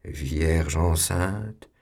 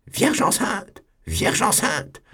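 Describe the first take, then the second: First: Very slow, each syllable stretched; drawn-out syllables. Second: Much higher, shrill-pitched outburst; bursting out. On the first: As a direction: stretch out Vierge enceinte mockingly. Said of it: "prolongeait chaque syllabe avec un ricanement". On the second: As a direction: burst out Vierge enceinte in scandal. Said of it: "il éclata". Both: Acted.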